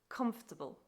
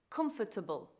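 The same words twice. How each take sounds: First: The word is said without an extra syllable. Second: The word is said with an extra syllable. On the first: The speaker calls it right. "The correct pronunciation is" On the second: The speaker calls it wrong. "people tend to add an extra syllable. The wrong pronunciation is"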